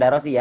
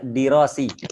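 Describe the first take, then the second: First: The first vowel is an a sound. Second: The first vowel is an i sound. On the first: The speaker calls it wrong. "Bukan darosi ya" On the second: The speaker calls it right.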